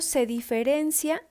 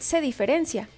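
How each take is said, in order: First: The stress falls on a misplaced syllable. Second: The stress falls on the standard syllable. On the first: The speaker calls it wrong. "acento mal colocado. Como cuando decimos" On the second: The speaker calls it right. "lo correcto es decir"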